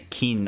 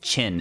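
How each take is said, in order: First: The word begins with a k sound. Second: The word begins with a ch sound. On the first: The speaker calls it wrong. "don't say Kin" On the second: The speaker calls it right. "It's pronounced Chin"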